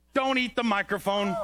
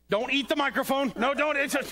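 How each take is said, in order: First: Said in the usual way. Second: Sharp high scold at a puppet; scolding the dog. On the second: Acted. Man scolds puppet dog chewing the microphone, sharp higher scold. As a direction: stop him, higher and firmer.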